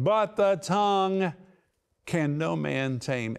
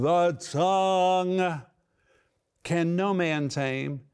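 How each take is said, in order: First: Said in the usual way. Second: Raised voice. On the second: Retold or imitated. Preacher voicing James declaring the tongue untameable, raised. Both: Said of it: "It's like he's raising his voice".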